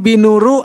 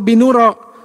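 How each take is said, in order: First: The word ends with a u vowel. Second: The word ends with an a vowel. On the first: "Jadi nggak mungkin binuru" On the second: "atau binuro"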